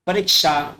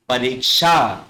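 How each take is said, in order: First: परीक्षा with short i in the middle; mistaken short i. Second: परीक्षा with long ee and drawn-out ending; correct long ee. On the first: Teacher shows children's mistake, परीक्षा with short i. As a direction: say परीक्षा as "pa-rik-sha". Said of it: "छोटी ई की मात्रा नहीं लगती". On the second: Teacher models correct परीक्षा, long "reek" and "shaa". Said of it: "सही रूप होगा तो वो होगा". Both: Shown as a demonstration.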